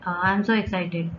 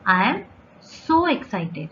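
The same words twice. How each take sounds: First: It is flat and low in energy. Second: It is lively, with strong emphasis on so. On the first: The speaker seems worn out, not thrilled. The speaker calls it wrong. "अरे आप बहुत tired हो" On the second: The speaker is genuinely thrilled. The speaker calls it right. "सो पे ज़्यादा emphasise कर रही हूँ"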